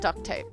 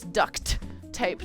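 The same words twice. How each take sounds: First: The first word sounds like the word duck. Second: The first word ends with a clear t sound. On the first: This is the name people mistakenly believe. The speaker calls it wrong. "not duct tape" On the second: This is the real name of the tape. The speaker calls it right. "you realized it was duct tape"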